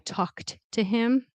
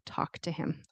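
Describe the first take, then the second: First: Both T sounds are pronounced separately. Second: The two T sounds merge into one. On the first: "you can say I talked to him" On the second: "usually in fast speech, it'll sound like talk to him"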